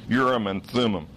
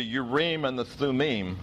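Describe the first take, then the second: First: Urim and Thummim stressed on the first syllables, YOOR-im and THUM-im; usual English stress. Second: Urim and the Thummim with the stress on the last syllables, yeh-reem and thoo-meem; Hebrew stress. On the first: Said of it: "gonna say it the way I've always heard it". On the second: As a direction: stress the ends: Urim as u-RIM, Thummim as thum-MIM, the Hebrew way. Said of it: "Hebrew has a tendency to want to stress the final syllable". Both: Shown as a demonstration.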